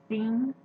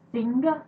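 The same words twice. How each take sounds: First: The final g sound is dropped. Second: The final g sound is clearly pronounced. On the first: The speaker calls it wrong. "I have a bad habit of not pronouncing my G's at the end of the words" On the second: The speaker calls it right. "I was told that it's pronounced sing"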